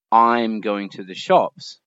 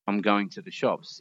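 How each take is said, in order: First: Slow and loud, a full stressed "I'm"; over-articulated full forms. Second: "I'm" shrunk to a quick schwa, stress on "going" and "shops"; natural reduced form. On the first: Teacher showing what no one says, stilted and overstressed. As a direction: give every word of "I'm going to the shops" its full weight. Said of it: "no one actually says". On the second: Teacher showing real speech, natural reduced rhythm. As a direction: say "I'm going to the shops" casually, small words weakened. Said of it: "What would you actually say?". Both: Shown as a demonstration.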